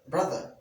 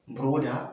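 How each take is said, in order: First: The middle consonant is a th sound. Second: The middle consonant is a d sound. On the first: The speaker calls it right. "even more soothing to the ear" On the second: The speaker calls it wrong.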